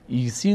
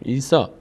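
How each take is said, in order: First: The word ends with an 'ee' sound. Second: The word ends with an 'ah' sound. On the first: The speaker calls it wrong. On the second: The speaker calls it right.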